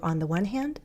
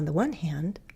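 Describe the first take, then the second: First: The pitch rises slightly at the end. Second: The pitch falls and then rises. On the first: "You can go up a little" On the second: "that fall rise"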